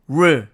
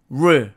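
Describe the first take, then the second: No difference in how they are said.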